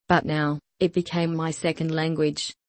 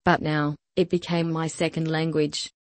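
The two takes are said the same way.

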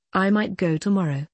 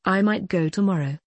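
The two takes are said the same way.

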